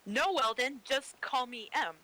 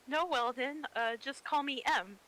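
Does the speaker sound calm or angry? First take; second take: angry; calm. First: It is said firmly, with anger. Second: It is said mildly, without anger.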